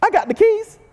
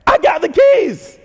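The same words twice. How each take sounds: First: "keys" sliding up very high, teasing; cocky Peter. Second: Slow, loud, weight on "I" in "I got the keys"; boastful I. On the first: Peter bragging about the keys, "keys" rising high. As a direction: lift "keys" way up, playful brag. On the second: Peter boasting he alone has the keys, slow stress on "I". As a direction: lean hard on "I", slow and proud. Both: Retold or imitated. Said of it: "He's like".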